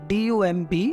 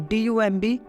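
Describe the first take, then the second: No difference in how they are said.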